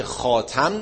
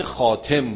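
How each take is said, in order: First: "خاتم" as khaa-tam, ending with an a vowel; khaatam form. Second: "خاتم" as khaa-tem, ending with an e vowel; khaatem form. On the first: Teacher contrasts two word forms for students, "خاتم" as khaatam. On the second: Teacher contrasts two word forms for students, "خاتم" as khaatem. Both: Shown as a demonstration.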